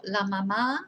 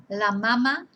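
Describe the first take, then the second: First: "la mamá" as la ma-MAA; stress on second A. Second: "La mama" as la MA-ma; stress on first syllable. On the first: Teacher warning which word is not breast, stress on second A. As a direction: hit the final A of "mamá". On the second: Teacher recapping the word for breast, first-syllable stress. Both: Shown as a demonstration. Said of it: "not la mamá".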